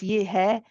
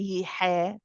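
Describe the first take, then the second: First: The h is relaxed with no throat tension. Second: The h is pushed hard with throat tension. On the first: The speaker calls it right. "hai is very relaxed" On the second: The speaker calls it wrong. "We don't say ye hai"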